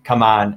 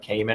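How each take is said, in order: First: The first syllable sounds like 'come'. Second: The first syllable sounds like 'came'. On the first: The speaker calls it right. "that's how you pronounce it" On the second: The speaker calls it wrong. "I used to thought it was like Cayman"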